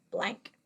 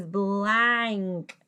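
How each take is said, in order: First: Said in the usual way. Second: "blank" drawn out slowly through the vowel; stretched word. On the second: Shown as a demonstration. Sounds word out, then blends it.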